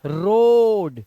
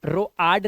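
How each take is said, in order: First: रोड with one long pure o, drawn out slowly and louder; loud, slow one-syllable रोड; correct road. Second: रोआड split into ro-aad; wrong two-vowel रोआड; misreading of road. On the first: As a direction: stretch the o in रोड. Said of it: "तो इसको ओ ही पढ़ना है". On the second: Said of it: "रोआड नहीं". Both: Shown as a demonstration.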